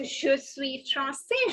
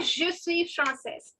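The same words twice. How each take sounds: First: Français ending in 'say', slowly; no final s on français; français as 'frahn-say', rising; masculine, silent S. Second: Française ending in 'sez', slowly; française as 'frahn-sez', falling; feminine, sounded ending. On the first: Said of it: "The last S is not to be pronounced". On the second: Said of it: "Did you notice the difference". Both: Shown as a demonstration.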